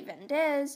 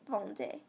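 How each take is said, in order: First: The final Z is pronounced aloud. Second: The final Z is not pronounced. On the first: The speaker calls it wrong. "You don't say vendez" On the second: The speaker calls it right. "the Z is silent"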